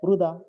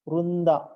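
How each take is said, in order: First: The word has no 'n' sound before 'd'. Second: The word has an 'n' sound before 'd'. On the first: The speaker calls it wrong. "यहाँ लिखा है वृदा" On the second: The speaker calls it right. "न का उच्चारण हो रहा है"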